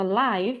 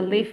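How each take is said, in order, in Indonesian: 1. Vokalnya adalah bunyi 'eye' panjang. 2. Vokalnya adalah bunyi 'i' pendek. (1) "kalau live itu artinya adalah kehidupan" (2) "Kalau live itu tinggal"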